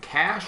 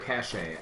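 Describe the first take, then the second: First: It is said as one syllable, like cash. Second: It is said as two syllables, like cachet. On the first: "Is it cash or cachet?" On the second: "I say cachet because that sounds fancy"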